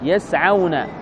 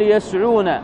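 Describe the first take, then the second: First: The sound before the w is 'a'. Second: The sound before the w is not 'a'. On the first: The speaker calls it right. "يكون ما قبل الواو مفتوح" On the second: The speaker calls it wrong. "فلا تقول يسعون، هذا خطأ"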